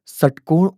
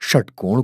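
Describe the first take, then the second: First: The word begins with a plain s sound. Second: The word begins with a sh sound. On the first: The speaker calls it wrong. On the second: The speaker calls it right.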